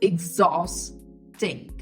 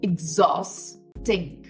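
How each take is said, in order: First: It begins with an 'ig' sound then 'zaw'. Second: The same.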